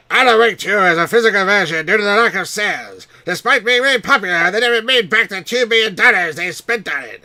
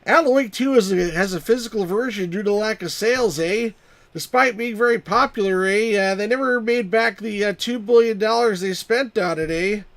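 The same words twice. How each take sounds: First: High, very loud cartoon voice; squawky hammed-up cartoon character, full volume; South Park Canadian. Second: High, loud mock Canadian accent; hammed-up Canadian with perky "eh"s. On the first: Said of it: "you'd be talking like this". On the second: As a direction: do a cartoonish Canadian accent, pitched up. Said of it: "That's my Canadian accent".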